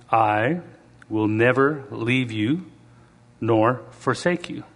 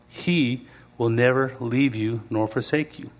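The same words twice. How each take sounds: First: Slow, solemn reading of the verse; scripture voice. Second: Said in the usual way. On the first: Shown as a demonstration. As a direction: read it like holy scripture, unhurried. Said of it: "in my scripture voice". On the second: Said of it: "Let me just read this again".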